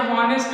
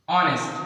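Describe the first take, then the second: First: हॉनेस्ट said with the H sounded, like "haw-nest"; wrong pronunciation demo. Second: ऑनेस्ट said with a silent H, starting on the vowel "aw-nest"; correct pronunciation demo. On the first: Teacher showing students the mistaken H in हॉनेस्ट. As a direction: show the common mistake: हॉनेस्ट with a spoken H. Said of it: "बहुत से बच्चे इसको हॉनेस्ट पढ़ते हैं". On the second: Teacher modelling for students the correct silent-H ऑनेस्ट. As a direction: model ऑनेस्ट cleanly, no H at all. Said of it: "इसका शुद्ध pronunciation है ऑनेस्ट". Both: Shown as a demonstration.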